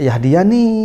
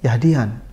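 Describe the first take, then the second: First: The word ends with a long drawn-out vowel. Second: The word ends short and quick. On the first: Guidance takes a long time to arrive. "Nggak Yahdiyani" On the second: Guidance arrives more quickly. "karena bacanya cepat Yahdian"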